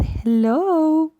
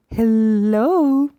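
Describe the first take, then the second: First: High, stretched-out hello. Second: Hello stretched out long, a little louder. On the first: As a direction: lift hello up high to a baby. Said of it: "her voice went very high again". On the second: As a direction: draw the word out to a baby. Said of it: "she stretched the word out". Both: Shown as a demonstration.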